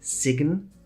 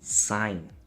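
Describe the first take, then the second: First: A hard g sound is pronounced in the word. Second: No g sound is pronounced in the word. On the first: The speaker calls it wrong. "people sometimes add a hard G by mistake" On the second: The speaker calls it right. "it's sign"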